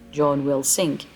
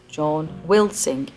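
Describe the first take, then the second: First: The word 'will' carries no special stress. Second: The word 'will' carries strong stress. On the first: The sentence is neutral. "non uh, emphatic form of the sentence" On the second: The sentence is emphatic. "stressing the verb will"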